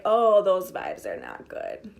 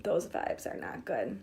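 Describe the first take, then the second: First: Said in the usual way. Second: Breathy whisper, slow and soft. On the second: Shown as a demonstration. Coach whispers a warning about bad vibes. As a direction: hush it like a warning to yourself.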